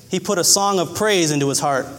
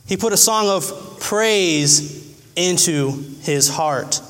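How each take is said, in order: First: Said in the usual way. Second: Slow, weighty preaching repeat; slow, drawn-out emphasis. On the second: Shown as a demonstration. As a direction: stretch every word out slowly. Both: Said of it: "repeated slower".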